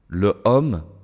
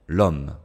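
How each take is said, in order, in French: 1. La voyelle de le est gardée devant homme. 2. La voyelle de le est supprimée devant homme.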